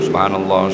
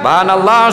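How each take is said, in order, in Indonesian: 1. Diucapkan dengan pelan, dengan volume rendah. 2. Diucapkan dengan keras, dengan volume penuh. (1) "Dia pun wirid slow dulu" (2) "bila dua orang tu sudah salam"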